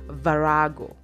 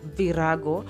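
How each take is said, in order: First: The word has English-style vowels and stress. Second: The word has Swahili-style vowels and stress. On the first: "in English, this word is pronounced as virago" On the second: "in Kiswahili, it is pronounced as virago"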